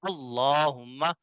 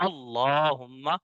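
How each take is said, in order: The two takes are said the same way.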